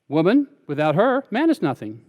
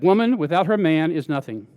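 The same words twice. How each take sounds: First: It has pauses after 'woman' and after 'her'. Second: It runs on with no pause after 'her'. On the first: A man is nothing without a woman. "Women said" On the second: A woman is nothing without her man. "the men said"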